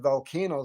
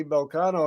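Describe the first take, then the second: First: Volcano with a flat "a" as in can, vol-KAN-o; misread pronunciation. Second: Volcano with "ah" in the middle, vol-KAH-no; intended pronunciation. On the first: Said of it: "very clearly see it said Volcano". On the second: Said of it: "I went to say Volcano". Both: Retold or imitated.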